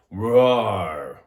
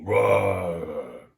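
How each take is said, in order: First: Much louder roar from the chest; low lion roar. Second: Louder low roar from the chest; low lion roar. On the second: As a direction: keep the roar low and held. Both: Shown as a demonstration. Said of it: "But it's low".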